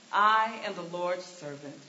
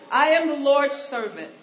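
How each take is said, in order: First: Sincere Mary. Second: Loud, laughing proclamation; laughing Mary. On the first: Mary's answer, said twice. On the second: Preacher voicing Mary's reply loud and laughing. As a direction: belt it out through a laugh. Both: Pretend.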